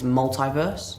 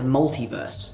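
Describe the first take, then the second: First: The word is said in an American accent. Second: The word is said in a British accent. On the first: The speaker calls it right. "in an American accent it's multiverse" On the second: The speaker calls it wrong. "I said multiverse"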